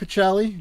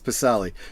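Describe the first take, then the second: First: The name is said with its original, non-English sound. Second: The name is said with an English-style sound. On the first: "I pronounce it Pacelli" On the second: "anglicized for so many, so many years"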